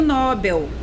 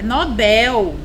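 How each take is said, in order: First: The stress is on the first syllable. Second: The stress is on the last syllable. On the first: The speaker calls it wrong. "muita gente diz assim" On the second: The speaker calls it right. "É Nobel"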